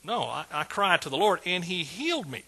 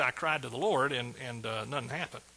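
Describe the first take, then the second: First: Firm lift on "healed me"; emphatic correction. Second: Mock misquote. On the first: Retold or imitated. Preacher correcting the misquote of David, stressing "healed me". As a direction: land "healed me" as the sure result. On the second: Preacher giving what David didn't say, trailing off deflated. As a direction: let it sag, lower and much softer at the end. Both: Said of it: "he didn't say".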